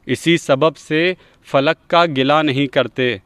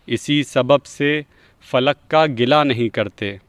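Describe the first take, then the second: No difference in how they are said.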